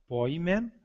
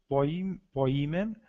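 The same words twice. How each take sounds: First: "poimen" stressed on its last syllable, poi-MEN; end-stressed Greek "poimen"; accent on eta. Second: "poimen" stressed on the i, po-I-men; accent on iota. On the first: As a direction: let "poimen" rise onto a stressed "men". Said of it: "com acento no eta". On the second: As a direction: break off "Poim-" and restart, punching the i of "poimen". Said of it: "com acento no i". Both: Shown as a demonstration.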